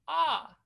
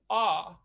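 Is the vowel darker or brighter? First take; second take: brighter; darker. First: The vowel sounds brighter and lighter. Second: The vowel sounds darker and heavier.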